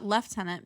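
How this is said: The first syllable sounds like 'lef'. This is how it is said in Canada. "because we're in Canada"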